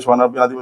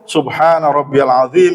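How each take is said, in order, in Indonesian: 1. Frasa itu dibaca dengan cepat-cepat. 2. Frasa itu dibaca dengan pelan dan jelas. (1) "cepet-cepetan begini" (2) "Jadi jelas bacaan kita"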